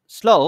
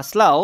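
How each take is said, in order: First: স্লো as "slo"; first pronunciation. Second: স্লাউ as "slau"; alternative pronunciation. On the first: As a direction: say স্লো with an o vowel. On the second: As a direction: say স্লাউ with an "au" glide. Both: Shown as a demonstration. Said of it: "বা স্লাউ".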